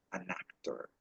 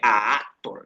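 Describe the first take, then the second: First: "an actor" with the N joined onto the A of actor; linked AN before actor. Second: "a actor" with the vowels left bare, no N between; A before actor, unlinked. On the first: Teacher shows students the fix, "an actor" linked by N. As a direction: say "an actor" softly, running as "a-nactor". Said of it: "sino que suene entonces an actor". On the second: Teacher shows students what to avoid, "a actor" without linking N. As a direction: say "a actor" as two separate vowels meeting. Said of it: "para que no suene a actor". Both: Shown as a demonstration.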